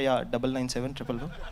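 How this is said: It is said in a flat, low voice.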